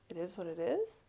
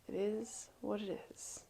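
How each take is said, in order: First: The voice rises at the end, like a question. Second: The voice falls at the end.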